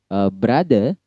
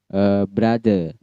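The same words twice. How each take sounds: No difference in how they are said.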